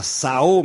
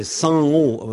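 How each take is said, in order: First: "Sao" slow with a plain oral a; "Sao" drawn out with no nasal; wrong oral Sao. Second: "São" slow with a nasal a; "São" drawn out through the nose. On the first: Teacher to listeners, showing the wrong reading. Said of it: "c'est pas Sao". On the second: Teacher to listeners, giving the right nasal vowel. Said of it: "mais São". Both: Shown as a demonstration.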